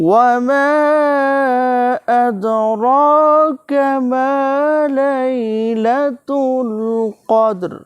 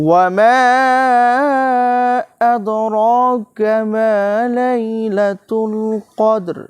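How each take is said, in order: The two takes are said the same way.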